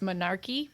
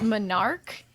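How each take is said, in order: First: The word ends with an extra final vowel sound. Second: The word ends without a final vowel sound. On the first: The speaker calls it wrong. "I always like to pronounce the E at the end" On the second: The speaker calls it right. "I know how it's really said"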